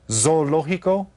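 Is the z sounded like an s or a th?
s. The z is said as an s sound.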